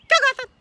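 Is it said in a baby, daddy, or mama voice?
mama. It is said in a mama voice.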